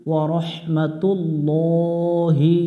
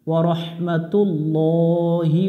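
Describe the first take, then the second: No difference in how they are said.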